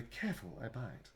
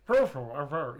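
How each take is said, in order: First: Said in the usual way. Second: Talking through a mouthful; words round a bite; mouth full. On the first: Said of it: "like he's saying it". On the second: Shown as a demonstration. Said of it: "He's saying it with a mouthful".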